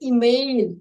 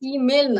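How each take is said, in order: First: The vowel after the m is drawn out. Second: The vowel after the m is short. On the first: The speaker calls it right. "একটু হর্ষইটা একটু টান দিতে হবে" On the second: The speaker calls it wrong. "এটা ইমেল না"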